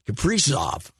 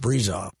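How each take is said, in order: First: The middle consonant is an S sound. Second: The middle consonant is a Z sound. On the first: The speaker calls it wrong. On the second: The speaker calls it right.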